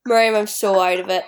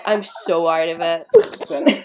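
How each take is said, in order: First: Said in the usual way. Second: Slow, dazed and drawn out; woozy and dragging; spaced-out drawl. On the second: Real, not acted. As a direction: let the words sag like you're half asleep.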